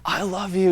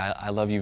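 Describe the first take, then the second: First: It is said with intense, overwrought emotion. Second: It is said slowly, softly and tenderly.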